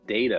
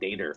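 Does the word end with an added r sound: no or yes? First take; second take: no; yes. First: The word ends in a plain vowel. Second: The word ends with an added r sound. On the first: "instead of saying data" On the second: "I will say D A T E R, like data"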